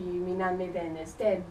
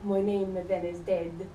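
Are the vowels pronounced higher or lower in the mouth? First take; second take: lower; higher. First: The vowels are pronounced lower, without diphthongs. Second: The vowels are pronounced higher, with diphthongs. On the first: This is the older form of the language. "In the earlier pronunciation" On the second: This is the newer form of the language. "And in the later pronunciation"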